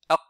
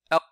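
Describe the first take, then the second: First: The final consonant is held silent, barely heard. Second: The same.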